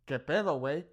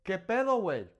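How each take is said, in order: First: Mild mock confrontation, do we have a problem; angry challenge. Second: Bright, upbeat "¿Qué pedo, güey?"; a casual greeting to a buddy; friendly. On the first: Teacher acting out an angry stranger, mild mock threat. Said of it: "Like, I'm angry". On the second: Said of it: "I can also say". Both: Shown as a demonstration.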